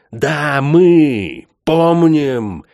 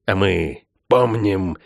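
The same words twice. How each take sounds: First: МЫ drawn out higher and louder, very slow; stress on МЫ. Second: Said in the usual way. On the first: Acted. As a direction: lean hard on МЫ, slowly. Repeated line, emphatic.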